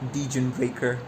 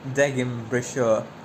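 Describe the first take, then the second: First: The name ends like the English word breaker. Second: The name ends like the German word brecher. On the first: The speaker calls it wrong. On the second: The speaker calls it right.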